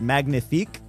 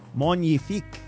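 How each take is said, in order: First: It is pronounced the English way. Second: It is pronounced the French way. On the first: The speaker calls it wrong. "I would have said magnifique" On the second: The speaker calls it right. "but it's magnifique"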